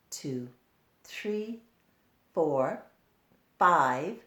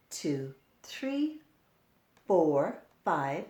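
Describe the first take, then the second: No difference in how they are said.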